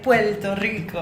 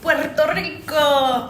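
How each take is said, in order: First: It is said with a Puerto Rican accent. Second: It is said with an American accent.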